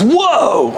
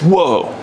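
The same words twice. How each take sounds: First: It is said as an excited exclamation. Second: It is said as a plain flat statement. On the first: "if it's an exclamation point, it goes" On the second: "if it's like a period, it's"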